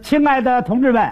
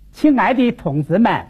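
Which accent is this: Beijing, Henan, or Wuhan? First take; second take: Beijing; Wuhan. First: It is spoken in a standard Beijing accent. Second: It is spoken in a Wuhan accent with falling tones. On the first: "刚才您看我说的 那是北京话" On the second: "换我武汉方言"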